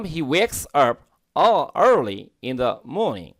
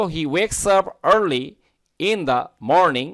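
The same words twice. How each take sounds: First: British reading with no r in 'morning'; British accent. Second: American reading, r sounded in 'early' and 'morning'; American accent. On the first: Teacher modelling the sentence for learners, British accent. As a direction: read it British, rounded 'maw-ning'. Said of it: "এটা হচ্ছে British উচ্চারণ". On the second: Teacher modelling the sentence for learners, American accent. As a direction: read it American with clear r's. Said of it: "American উচ্চারণ". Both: Shown as a demonstration.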